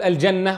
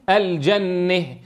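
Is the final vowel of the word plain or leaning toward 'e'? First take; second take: plain; leaning. First: The final vowel is a plain open 'a'. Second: The final vowel leans toward an 'e' sound. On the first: The speaker calls it wrong. "لا يقول الجنة" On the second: The speaker calls it right. "وإنما يميلها"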